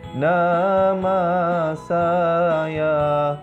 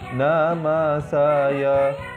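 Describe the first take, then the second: First: The vowels are drawn out long. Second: The vowels are short. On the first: "bacaan mad" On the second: "fathah seperti nama saya"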